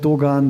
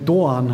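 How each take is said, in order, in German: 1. Der Name wird mit deutscher Aussprache gesagt. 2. Der Name wird mit türkischer Aussprache gesagt. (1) "nenne ich mich selbst Dogan" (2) "die zum Beispiel Doğan heißen"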